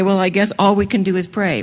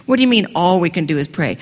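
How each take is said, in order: First: Shrugging, defeated last resort; resigned, giving-up tone; resigned sigh. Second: Fast, challenging question with "all" pushed hard; brisk, incredulous pushback; indignant retort. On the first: Retold or imitated. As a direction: say it like there's nothing left but prayer. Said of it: "and we will say". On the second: Acted. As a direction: throw the phrase back in disbelief. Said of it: "Wait a minute".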